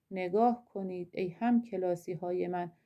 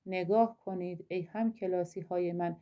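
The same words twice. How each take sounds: The two takes are said the same way.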